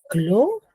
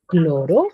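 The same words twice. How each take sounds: First: "cloro" broken as clo, pause, ro; "cloro" in two separated beats; split into syllables. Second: Said in the usual way. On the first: Shown as a demonstration. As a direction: say "cloro" one syllable at a time. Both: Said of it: "tiene dos sílabas".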